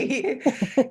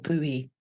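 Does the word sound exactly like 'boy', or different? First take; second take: like boy; different. First: The word is said exactly like 'boy'. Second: The word is not said like 'boy'. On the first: This is how the speaker says it. "but I pronounce it boy" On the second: This is how some other people say it. "whoever pronounces it that"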